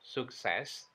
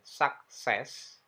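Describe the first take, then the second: First: The first vowel sounds like u. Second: The first vowel sounds like a. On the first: "atau suk" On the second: "bukan sak"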